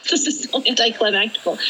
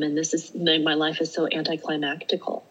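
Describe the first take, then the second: First: Mock dismay. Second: Said in the usual way. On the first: Laughing repeat of the thought.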